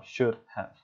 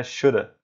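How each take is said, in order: First: "should have" spelled out as two words; careful, separated "should have"; full unreduced form. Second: "shoulda" as one word ending in a weak "uh"; casual clipped-off "shoulda"; further reduced form. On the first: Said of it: "em vez de falar". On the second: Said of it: "Ou até shoulda". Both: Shown as a demonstration.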